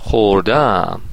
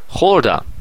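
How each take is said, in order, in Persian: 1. تکیه روی هجای دوم است. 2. تکیه روی هجای اول است. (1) "شما باید ماضی نقلی بگید" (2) "من مثلا گذشته رو میگم"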